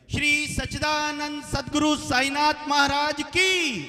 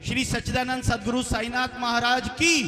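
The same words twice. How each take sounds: First: Slow, much higher and louder drawn-out chant-shout; huge climactic jaikara, falling on की; full-force devotional call. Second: Loud, higher chant-call to the crowd; rousing jaikara shout; devotional call-out. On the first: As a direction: stretch every word and hold की at the top of the voice. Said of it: "एक साथ मिलकर जयकारे की". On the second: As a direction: lead the hall in a rousing cheer, rising on की. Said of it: "जोरदार सभी मिलकर जयकारा लगाएंगे". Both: Real, not acted.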